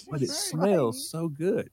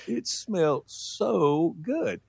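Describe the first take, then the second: First: Put-on kid's voice. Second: Very slow, savoring each word; dragged out. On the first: Kid pleads with mom. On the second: Retold or imitated. Kid savoring the smell of gas, very slow. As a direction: linger on it like it's a treat.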